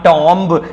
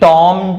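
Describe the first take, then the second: First: The word ends with an audible b. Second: The word ends on m with no b. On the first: The speaker calls it wrong. "Not टॉम्ब" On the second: The speaker calls it right. "टॉम not टॉम्ब"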